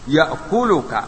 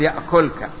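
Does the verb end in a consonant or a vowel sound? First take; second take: vowel; consonant. First: The verb ends with a final vowel sound. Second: The verb ends without a final vowel sound. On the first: The verb is in the indicative, not the jussive. The speaker calls it right. "تقول لا تدنو من الأسد يأكلك" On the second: The verb is in the jussive mood. The speaker calls it wrong. "ما نقول يأكلك"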